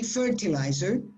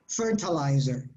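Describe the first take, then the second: First: It is said with a British pronunciation. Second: It is said with an American pronunciation. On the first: "The British say fertilizer" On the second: "And the Americans?"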